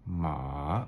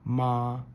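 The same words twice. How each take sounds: First: The pitch dips down then rises. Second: The pitch stays high and level. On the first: "down, up" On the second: "with the flat tone is ma"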